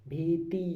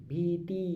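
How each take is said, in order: The two takes are said the same way.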